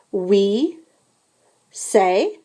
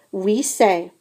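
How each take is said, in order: First: We, a pause, then say; split for repetition. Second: Said in the usual way. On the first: Shown as a demonstration. Teacher has the class repeat We say in parts. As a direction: break We say into slow pieces. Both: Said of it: "répétez".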